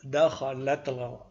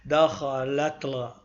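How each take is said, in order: The two takes are said the same way.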